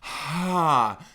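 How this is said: The vowel starts with a breathy puff of air. "aspirate, where your vocal folds start kind of apart with a burst of air"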